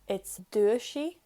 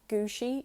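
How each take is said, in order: First: The word starts with a plain D sound. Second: The word starts with a hard G sound. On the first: The word is in its basic form. "on its own, without séú" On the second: The changed form is approximated simply. "you just say it like a G"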